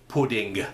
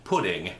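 First: Every letter is sounded, ending in hard g. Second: The ending has no separate hard g sound. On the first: "certain dialects tend to pronounce every letter of a word" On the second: "So it wasn't pudding"

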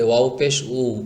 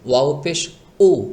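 First: The vowel flows on smoothly without a jolt. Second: The vowel starts with an abrupt glottal jolt. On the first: The letter is heard as waw. The speaker calls it right. "এটাকে স্বাভাবিকভাবে বলবেন, এভাবে" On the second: The letter sounds like hamza or alif instead. The speaker calls it wrong. "টক্কর লাগিয়ে বা ধাক্কা লাগিয়ে"

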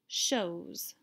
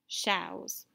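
First: The vowel sounds like the o in snow. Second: The vowel sounds like the ow in cow. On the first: The speaker calls it right. "read that OW vowel team with the long O sound like snow" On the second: The speaker calls it wrong. "Let's try it with OW just to make sure"

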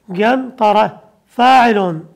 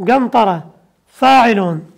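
The two takes are said the same way.

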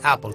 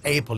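First: The first vowel is a steady monophthong. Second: The first vowel glides as a diphthong. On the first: The speaker calls it right. "si hay un monoptongo, tengas un monoptongo" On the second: The speaker calls it wrong. "que no digas Apple en vez de Apple"

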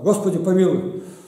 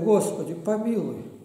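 First: The prayer is said harshly and demandingly. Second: The prayer is said softly and humbly. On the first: The speaker is demanding something from God. The speaker calls it wrong. "как будто Бога за грудки берет" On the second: The speaker is pleading with tender contrition. The speaker calls it right. "Ну давай за мной повторяй"

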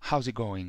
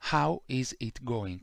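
First: 'How is' is contracted into one syllable. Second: 'How is' is said as two full words.

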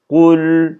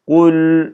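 First: The word ends on a bare l sound. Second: The same.

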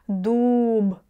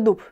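First: The word is drawn out with the last sound separated. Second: The word is said quickly as one unit. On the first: "если мы начнем выделять" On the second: "когда мы говорим слово быстро"

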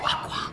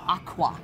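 First: It is said in a whisper. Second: It is said in a normal voice.

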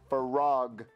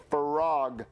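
Both takes have the same delivery.

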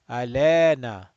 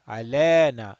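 The two takes are said the same way.

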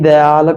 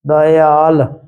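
First: The word starts with a short 'di' sound. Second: The word starts with separate 'da-i' sounds. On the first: The speaker calls it wrong. "ਕਈ ਦਿਆਲ ਕਹਿ ਦਿੰਦੇ" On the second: The speaker calls it right. "ਇਸ ਤਰ੍ਹਾਂ ਉਚਾਰਨ ਕਰਨਾ ਹੈ"

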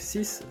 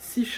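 First: The final consonant is pronounced as an s. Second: The final consonant is not pronounced at all. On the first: "Коли ми рахуємо, як ви помітили, вона читається" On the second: "остання літера не буде читатися перед приголосною"

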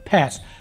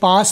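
First: It is said with an American accent. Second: It is said with a British accent. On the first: "American वाले लिटा के बोलते हैं" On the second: "British वाले पास बोलते हैं खड़ा करके"

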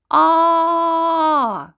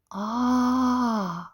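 First: The sound is said loudly. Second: The sound is said quietly. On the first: "а голосно" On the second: "Тихо, наприклад"

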